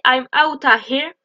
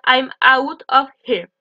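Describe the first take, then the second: First: "out of" reduced to "outta"; contracted. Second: Said in the usual way. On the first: Shown as a demonstration. Teacher showing what Americans say, contracted "outta here". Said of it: "faire beaucoup de contractions". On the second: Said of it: "ça veut dire".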